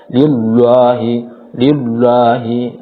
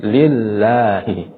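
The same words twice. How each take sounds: First: Slow, louder "Lillahi" with heavy, dark "llo"; thick lam. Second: Slow "Lillahi" with a light, clear double l; thin lam. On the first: Teacher showing the common mistake, thick lam. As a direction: weigh down the double l in "Lillahi". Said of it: "lamnya dibaca tebal". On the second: Teacher correcting the thick reading, thin lam. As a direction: keep "Lillahi" thin, open "la". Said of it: "tetapi dibaca tipis". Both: Shown as a demonstration.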